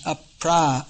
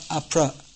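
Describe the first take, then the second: First: The vowel after pr is long. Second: The vowel after pr is short. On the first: The speaker calls it right. "there's long a. So it becomes apra" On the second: The speaker calls it wrong. "not apra"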